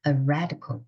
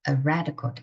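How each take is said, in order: First: The stress falls on the word red. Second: The same.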